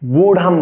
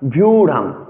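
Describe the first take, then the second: First: The word starts with a plain b sound. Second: The word starts with a vy consonant cluster. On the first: The speaker calls it wrong. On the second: The speaker calls it right.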